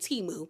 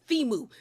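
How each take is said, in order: First: The name begins with a plain T sound. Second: The name begins with a TH sound. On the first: This is how someone else seemed to say it. The speaker calls it wrong. "the way that Stacy was saying it, I thought she was calling the man Timu" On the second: This is the pronunciation the website gave. The speaker calls it right. "there's an H there, so shouldn't it be Thimu? ... no, it's Thimu"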